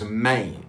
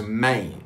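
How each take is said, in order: First: It is said with a drawn-out Memphis vowel. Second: The same.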